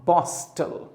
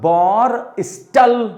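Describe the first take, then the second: First: The r is silent, joined smoothly to s. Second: The r is sounded, split into two parts. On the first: The speaker calls it right. "आर और एस को साथ में पढ़ देते हैं" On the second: The speaker calls it wrong. "बॉर स्टल ऐसा मत पढ़िएगा"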